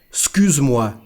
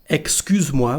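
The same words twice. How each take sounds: First: The first syllable is dropped. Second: Every syllable is fully pronounced. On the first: This is how people really speak. "we say something like excuse" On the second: This is the careful form taught in school. "instead of saying excuse-moi when we speak"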